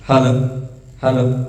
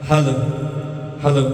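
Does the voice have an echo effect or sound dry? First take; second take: dry; echo. First: The voice sounds dry with no echo. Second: The voice has a strong echo effect. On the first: "ବର୍ତ୍ତମାନ ତ ମୁଁ ଇକୋ ଫିକୋ କିଛି ଦେଇନି।" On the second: "ଶୁଣିପାରୁଥିବେ କେମିତି ଇକୋ ଆସୁଛି।"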